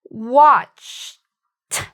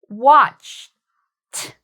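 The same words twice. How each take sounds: The two takes are said the same way.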